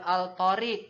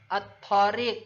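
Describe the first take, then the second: First: The L is pronounced before the T. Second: The L is silent; the T is doubled. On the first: The speaker calls it wrong. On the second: The speaker calls it right. "huruf lam tidak dibaca"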